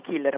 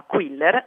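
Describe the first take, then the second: First: "Killer" with a plain k sound at the start; wrong name Killer. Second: "Quiller" with a kw sound at the start; corrected name Quiller. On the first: Linguist rejecting the misreading of Guido's surname, "Killer" with plain k. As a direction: say "Killer" with no w glide after the k. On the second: Linguist correcting the film character's surname for listeners, "Quiller" with clear kw. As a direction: slowly say "Quiller", gliding from k into w. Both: Shown as a demonstration. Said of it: "non Killer ma Quiller".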